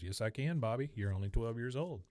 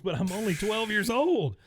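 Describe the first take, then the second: First: Softly delivered imitation of a dad's reply; mock fatherly comeback. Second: High, loud imitation of a dismayed kid; mock boyish protest. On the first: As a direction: answer the kid's protest evenly, as Dad. Acting the dad's calm comeback. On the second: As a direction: wail the objection like a twelve-year-old. Acting the boy's shocked protest.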